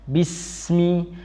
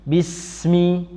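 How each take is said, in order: The two takes are said the same way.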